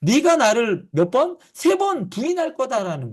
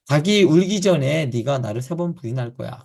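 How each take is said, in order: First: 몇 번 and 세 번 lifted much higher; stress on three times. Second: 닭이 hit hardest, with the rest of the line even; stress on the rooster. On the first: Pastor showing Jesus' emphasis, pushing 세 번 up high. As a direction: punch 세 번 high and hard as the point. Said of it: "뭐에 강조하는 거냐면". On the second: Pastor showing the old reading, stressing 닭이. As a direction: lean on the word 닭이 at the start. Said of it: "여기서의 중심이 되는 거는 닭이 우는 거예요". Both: Shown as a demonstration.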